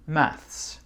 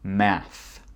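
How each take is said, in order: First: British accent, ending with an s sound. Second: American accent, ending without an s sound. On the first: "avec un accent anglais d'Angleterre" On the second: "avec mon accent américain"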